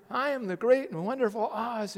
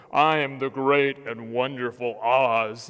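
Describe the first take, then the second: First: Said in the usual way. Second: Low, loud, booming wizard voice; deep loud proclamation from behind the curtain. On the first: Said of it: "little guy working the controls". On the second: Retold or imitated. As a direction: boom it out like the great and terrible wizard. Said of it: "Here they are ... all of a sudden".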